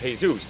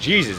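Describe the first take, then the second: First: The name has a Spanish pronunciation. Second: The name has an English pronunciation. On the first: "The pronunciation of this though in Spanish is" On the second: "the pronunciation of this in the English would be"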